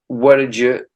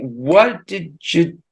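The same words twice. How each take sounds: First: The phrase is said quickly at natural speed. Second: The phrase is said slowly and deliberately.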